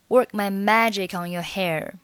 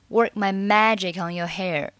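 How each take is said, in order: Both takes have the same delivery.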